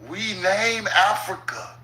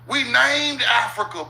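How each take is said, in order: First: It is said slowly and deliberately. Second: It is said at normal speed.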